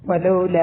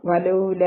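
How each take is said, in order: First: Said in the usual way. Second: "വലൗല" with the final aa held four counts; four-count madd. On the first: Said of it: "ഈ ലാമിന് എന്തുണ്ട്?". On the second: Shown as a demonstration. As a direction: stretch the end of "വലൗല" long. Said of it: "four count നീട്ടിയിട്ട്".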